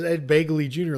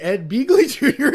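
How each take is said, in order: First: The surname rhymes with bagel. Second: The surname rhymes with beagle. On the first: "like bagel" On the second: "it sounds like Beagle"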